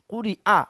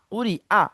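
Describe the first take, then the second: No difference in how they are said.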